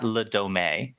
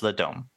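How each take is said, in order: First: The name is pronounced with English sounds. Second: The name is pronounced with French sounds. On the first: The speaker calls it wrong. "It's not Le Dome" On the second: The speaker calls it right. "If you say it's French, it's Le Dome"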